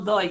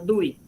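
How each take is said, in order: First: The vowel is pronounced as an O sound. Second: The vowel is pronounced as a U sound. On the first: The speaker calls it wrong. "no DOI" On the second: The speaker calls it right. "sino DUI"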